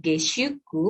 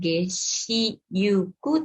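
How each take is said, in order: First: The 'shu' is said as one syllable. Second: The 'shi' and 'yu' are said as two syllables. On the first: The speaker calls it right. "maka yu-nya yu kecil" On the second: The speaker calls it wrong. "Bukan geshiyuku"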